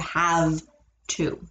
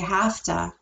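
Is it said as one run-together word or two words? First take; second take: two words; one word. First: It is two separate words with a v sound. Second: It is run together with an f sound. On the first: This is the full written form. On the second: This is how native speakers say it casually.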